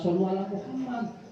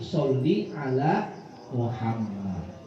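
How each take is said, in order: First: The first word ends in an 'u' vowel. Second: The first word ends in an 'i' vowel. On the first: The speaker calls it wrong. "bukan shollu ala Muhammad" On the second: The speaker calls it right. "tapi sholli ala Muhammad"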